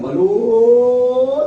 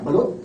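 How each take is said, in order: First: The word is called out long and drawn out. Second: The word is called out in a hoarse voice. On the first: The balut being sold is still hot. "pag mahaba yun" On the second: The balut being sold has gone cold. "Paus na yun"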